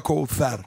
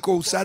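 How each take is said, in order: First: The middle consonant is a 'th' sound. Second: The middle consonant is an 's' sound. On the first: The speaker calls it wrong. "دیگه نمیخواد بگه کوفر" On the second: The speaker calls it right. "تو فارسی کوثر"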